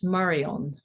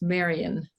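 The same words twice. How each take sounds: First: It is said with French stress on another syllable. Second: It is said with the local English stress. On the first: This is how people where the speaker comes from say it. "where I come from, it is" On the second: This is how people here say it. "here the word itself would be pr- pronounced"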